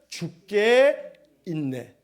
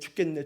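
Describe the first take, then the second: First: It is said slowly, syllable by syllable. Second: It is said fast, running together.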